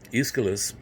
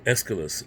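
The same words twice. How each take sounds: First: The name is said the non-American way. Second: The name is said the American way.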